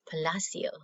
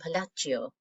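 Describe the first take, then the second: First: The name is pronounced a non-Italian way. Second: The name is pronounced the Italian way. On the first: The speaker calls it right. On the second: The speaker calls it wrong.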